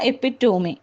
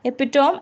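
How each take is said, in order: First: The word ends in a 'mee' sound. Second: The word ends in a 'tome' sound. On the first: The speaker calls it right. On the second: The speaker calls it wrong.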